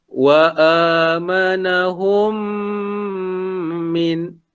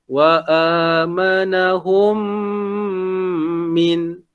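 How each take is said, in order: Both takes have the same delivery.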